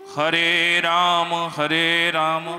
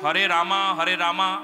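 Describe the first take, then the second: First: Each 'Ram' ends without an added 'a' vowel. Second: Each 'Ram' ends with an added 'a' vowel. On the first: The speaker calls it right. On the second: The speaker calls it wrong.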